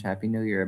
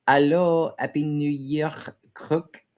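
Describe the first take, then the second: First: Said in the usual way. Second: Put-on higher-pitched, playful French-accented greeting. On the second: Livestream host greeting a viewer for New Year, French accent. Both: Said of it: "I was doing that in a French accent".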